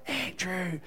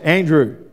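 First: The name is whispered softly. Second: The name is said very loudly.

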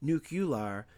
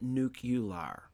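First: The middle syllable sounds like 'yoo' before 'lar'. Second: The same.

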